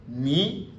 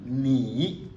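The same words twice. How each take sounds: First: "Ni" rising straight up; second-tone change. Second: "ni" as an isolated falling-rising syllable; full third tone. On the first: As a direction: lift "Ni" steadily like a question. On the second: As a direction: draw "ni" down and back up. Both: Shown as a demonstration. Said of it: "le premier devient deuxième ton".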